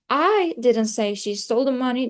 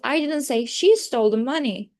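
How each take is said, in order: First: The word I carries the main stress. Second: The word she carries the main stress. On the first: Someone else said it. "I is the most important part" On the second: Someone else stole the money. "I'm trying to focus on the she"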